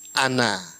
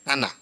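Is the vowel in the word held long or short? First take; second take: long; short. First: The vowel is pronounced long. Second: The vowel is pronounced short. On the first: The word refers to someone other than God. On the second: The word refers to God.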